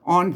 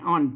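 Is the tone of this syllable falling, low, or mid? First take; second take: mid; falling. First: The syllable is said with a mid tone. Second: The syllable is said with a falling tone. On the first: "เสียงสามัญ" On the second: "เสียงโทรพิเศษ"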